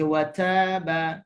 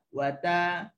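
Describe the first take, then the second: First: The t is released with an extra bouncing sound. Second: The t is held tightly without an extra bounce. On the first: The speaker calls it wrong. "Cuma jangan baca wataba, tak boleh" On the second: The speaker calls it right. "Wata wata wata"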